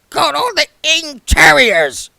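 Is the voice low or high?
high. It is said in a much higher voice.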